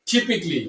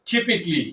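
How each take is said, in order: Both takes have the same delivery.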